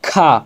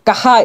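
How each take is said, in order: First: The k and h blend into one sound. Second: The k and h are split by a vowel. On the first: The speaker calls it right. "আমরা খা, খা বলবো" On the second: The speaker calls it wrong. "কাহা এটা শুদ্ধ উচ্চারণ নয়, এটা ভুল উচ্চারণ"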